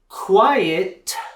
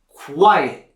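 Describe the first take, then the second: First: The final T is fully and strongly released. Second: The final T is started but cut off. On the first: "with the strong T sound at the end" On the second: "I'm going to start that T sound, but then stop it"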